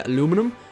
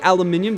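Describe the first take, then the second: First: It is said the way Americans say it. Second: It is said in the speaker's own non-American way. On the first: This is how Americans say it. "I know Americans say aluminum" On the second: This is how the speaker's own community says it. "I'm going to say aluminium. That's how we say it"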